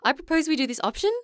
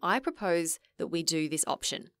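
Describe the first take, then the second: First: The voice rises at the end. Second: The voice falls at the end.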